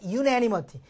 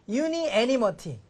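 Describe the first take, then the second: First: The vowel after 'un' is dropped, said quickly. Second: An extra vowel is heard after 'un'. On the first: The speaker calls it right. "빨리 발음하니까" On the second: The speaker calls it wrong. "I자가 빠져있다고 합니다"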